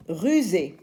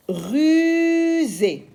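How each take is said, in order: First: Said in the usual way. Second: Rusée sung out high and slow, Z held; stretched z sound. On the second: Shown as a demonstration. Teacher models the word before repeating plainly. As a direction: draw out the Z in rusée.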